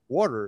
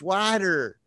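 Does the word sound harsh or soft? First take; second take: soft; harsh. First: The word is said in a soft manner. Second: The word is said in a harsh, strident manner. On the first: This is the speaker's own way of saying it. "that sounds so gross" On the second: This is how someone else says it. "It's so strident"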